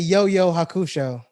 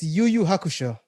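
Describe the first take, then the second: First: The first two words sound like 'yo'. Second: The first two words sound like 'yu'. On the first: The speaker calls it wrong. "You say Yo Yo Hakusho" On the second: The speaker calls it right. "it's Yu Yu Hakusho"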